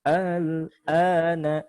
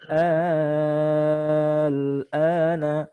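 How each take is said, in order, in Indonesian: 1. Hentian glotalnya dilembutkan menjadi luncuran halus. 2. Vokal panjangnya dibaca enam harakat. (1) "dengan tashil" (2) "boleh dibaca enam harokat"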